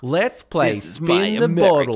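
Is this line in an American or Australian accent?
Australian. It is said with an Australian accent. The speaker calls it wrong.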